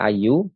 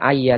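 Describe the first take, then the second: First: The word ends with a 'u' vowel. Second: The word ends with an 'a' vowel. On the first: The speaker calls it wrong. "tidak dibaca ayu" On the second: The speaker calls it right. "Dibaca ayya"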